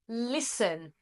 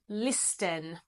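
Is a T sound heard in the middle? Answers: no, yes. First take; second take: no; yes. First: The middle has no T sound. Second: The middle has a pronounced T sound. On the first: The speaker calls it right. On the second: The speaker calls it wrong.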